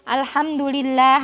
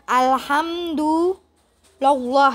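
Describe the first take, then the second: First: The word ends with an i vowel. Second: The word ends with a u vowel. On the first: The speaker calls it right. "harusnya ya" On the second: The speaker calls it wrong. "bukan alhamdulillah ya, itu salah ya"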